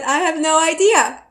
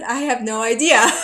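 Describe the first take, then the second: First: Higher and louder, mock exasperated. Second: Said in the usual way. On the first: Answering the taxi driver again, louder and exasperated. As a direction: throw it out, fed up with the questions.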